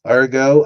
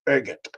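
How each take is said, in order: First: The word ends without a t sound. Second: The word ends with a clear t sound. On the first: "I thought it was pronounced ergo" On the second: "this British dude pronounced it ergot"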